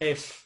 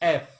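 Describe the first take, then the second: First: The F is made with teeth on lip. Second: The F is not made with teeth on lip. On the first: The speaker calls it right. "উপরের দাঁতের একদম নিচের অংশ ... নিচের যে ঠোঁট" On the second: The speaker calls it wrong. "বেশিরভাগই বলে ফেলে এফ"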